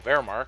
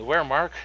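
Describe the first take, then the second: First: The word begins with a V sound. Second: The word begins with a W sound. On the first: The speaker calls it right. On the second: The speaker calls it wrong.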